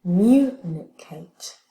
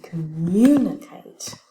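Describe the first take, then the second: First: "Communicate" drawn out slowly, word by word; slow stress demo. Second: Said in the usual way. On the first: Shown as a demonstration. Teacher slowly models the word's stress for the class. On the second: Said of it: "on a aussi communicate".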